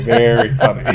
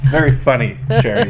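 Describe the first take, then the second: First: High, laughing through the words. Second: Said in the usual way. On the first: Acted. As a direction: say it while cracking up.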